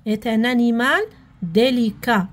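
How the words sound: The phrase ends with a full stop. The speaker calls it right. "نحبس"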